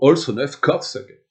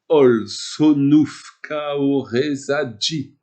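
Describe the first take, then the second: First: No extra vowels; consonants are clustered together. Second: Extra vowels are inserted, giving many separate syllables. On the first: The speaker calls it right. "c'est la version euh, énochienne" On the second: The speaker calls it wrong. "c'est la version à peu près Golden Dawn, où je rajoute des voyelles"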